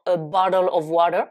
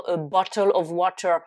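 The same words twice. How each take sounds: First: "a bottle of water" in an American accent, the T flapped to a D. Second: "a bottle of water" with crisp T sounds; careful British t. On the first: Teacher showing how North Americans say it. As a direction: say "a bottle of water" as "a baddle of wader". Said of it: "les Nord-Américains vont dire". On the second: Teacher contrasting careful speech with American speech. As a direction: pronounce each T in "a bottle of water" clearly. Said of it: "au lieu de dire". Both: Shown as a demonstration.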